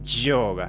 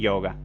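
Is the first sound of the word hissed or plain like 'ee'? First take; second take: hissed; plain. First: The word begins with a slightly hissing sound. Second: The word begins with a plain 'ee' sound. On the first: This is the Sanskrit way to say it. The speaker calls it right. "no es ni I ni sh. Es un poquito un término ahí intermedio" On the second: This is how Hindi speakers say it. The speaker calls it wrong. "toda Y se pronuncia siempre I"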